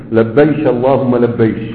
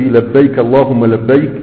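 First: لبيش اللهم لبيش with sh for k; كاف said as ش in لبيش; Yemeni shanshana. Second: Said in the usual way. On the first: Shown as a demonstration. Teacher demonstrating Yemeni dialect, k turned to sh. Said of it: "يجعلون الكاف شينا". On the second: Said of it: "في لغة اليمن يجعلون الكاف شينا".

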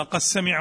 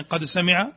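First: "قد سمع" with the dal merged into a doubled sin, "qas-sami'a"; assimilated first reading. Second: "قد سمع" with a separate dal, "qad sami'a"; clear second reading. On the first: Teacher showing students the first reading, dal merged into sin in "قد سمع". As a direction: run the dal of "قد سمع" into a long s. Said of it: "فيها قراءتان، القراءة الأولى". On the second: Teacher contrasting the second reading, clear dal before sin in "قد سمع". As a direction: sound the d of "قد سمع" distinctly before the s. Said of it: "والثانية". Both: Shown as a demonstration.

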